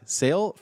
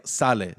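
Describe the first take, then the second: First: Sale as one syllable, like "sail", rising; English pronunciation. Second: Sale as two syllables, SAH-leh; Spanish pronunciation. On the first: Host questioning a listener's surname, "Sale" said like "sail". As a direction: ask "Sale" the English way, SAYL. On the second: Host puzzling over a listener's surname, "Sale" said SAH-leh. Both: Shown as a demonstration. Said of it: "Fefi Sale or Sale?".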